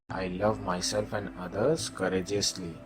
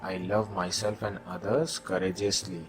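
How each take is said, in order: Both takes have the same delivery.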